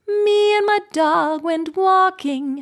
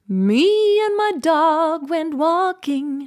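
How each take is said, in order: First: The M starts directly on a clear pitch. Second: The M slides vaguely up into its pitch.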